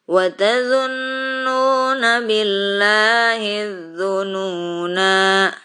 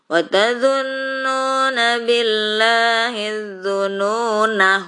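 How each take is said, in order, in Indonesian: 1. Vokal akhir dari dzununa itu panjang. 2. Vokal akhir dari dzununa itu pendek. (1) "Az-zununa ini kalau waqaf panjang" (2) "Tapi kalau diwasol ini pendek nanya"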